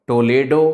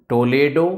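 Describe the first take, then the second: No difference in how they are said.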